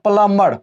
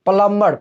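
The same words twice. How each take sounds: No difference in how they are said.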